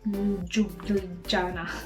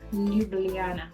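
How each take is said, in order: First: The j letters are sounded like an English j. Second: The j letters are sounded like a y. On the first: The speaker calls it wrong. "Not, not" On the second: The speaker calls it right. "just replace those J into U, into Y"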